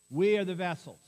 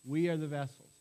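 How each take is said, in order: First: Louder, WE leaned on and falling; "We" punched, the line dropping at the end; emphatic. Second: Said in the usual way. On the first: Shown as a demonstration. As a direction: stress "We" firmly, proclaiming "We are the vessels".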